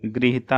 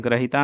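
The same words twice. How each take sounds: First: Said in the usual way. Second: ग्रहिता with "gra" at the start; wrong pronunciation. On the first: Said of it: "होता है". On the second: Shown as a demonstration. Teacher shows students the error, ग्रहिता with gra sound. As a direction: say ग्रहिता as gra-hita, not gri-. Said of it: "नहीं होता है".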